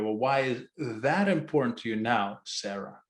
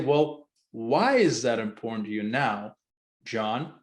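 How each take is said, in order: First: The stress is on "that". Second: The stress is on "why".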